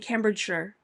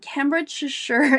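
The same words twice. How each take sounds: First: The ending is reduced to a short 'sher'. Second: The ending is said as a full 'shire'. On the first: The speaker calls it right. "you don't say Shire, you say Cambridgeshire" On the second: The speaker calls it wrong. "Probably messed that one up"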